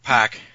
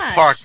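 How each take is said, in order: First: The R sound is dropped, Boston style. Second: The R sound is clearly pronounced. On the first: The speaker calls it wrong. "not pack" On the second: The speaker calls it right. "Pronounce your R's"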